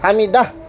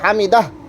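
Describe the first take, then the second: Both takes have the same delivery.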